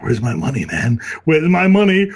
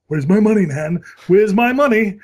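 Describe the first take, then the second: First: Loud mock demand, louder at the end; Family Guy quote. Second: Loud, high mock demand; Family Guy quote. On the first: To his girlfriend at arrival, loud mock demand. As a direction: demand it like the cartoon thug. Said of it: "I was like". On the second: Retelling quoting the cartoon to his girlfriend, loud demand. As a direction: bark the line like the cartoon thug. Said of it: "episode of Family Guy where they did".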